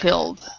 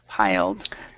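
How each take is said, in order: First: The vowel is short, like in 'ill'. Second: The vowel is long, like in 'eye'. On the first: The speaker calls it wrong. "instead of pilled" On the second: The speaker calls it right.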